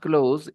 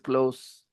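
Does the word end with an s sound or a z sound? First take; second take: z sound; s sound. First: The word ends with a buzzing z sound. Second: The word ends with a hissing s sound. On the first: It is the verb meaning to shut. The speaker calls it wrong. "with not z" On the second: It is the adjective meaning near. The speaker calls it right. "Close with s"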